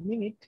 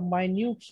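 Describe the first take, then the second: First: The first syllable has a short 'i' vowel. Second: The first syllable has an 'eye' vowel. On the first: It means a unit of time. "ঘড়িতে ব্যবহার করা হয়" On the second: It means a written record of a meeting. "সেই ক্ষেত্রে উচ্চারণটা মাইনিউটস হয়"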